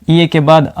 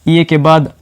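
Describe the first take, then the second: The two takes are said the same way.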